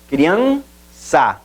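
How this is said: The word is split into separate syllables.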